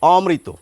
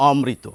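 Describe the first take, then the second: First: অমৃত as o-mri-to, one m; careful formal অমৃত, open অ then mri; single-m pronunciation. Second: অমৃত as om-mri-to, m doubled; natural doubled pronunciation. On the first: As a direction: drop the extra m from অমৃত. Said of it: "এই মটি যদি বাদ দেন". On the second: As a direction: say অমৃত the everyday Bengali way, with double m. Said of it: "বাঙালি স্বাভাবিকভাবে এটিই বলেন". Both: Shown as a demonstration.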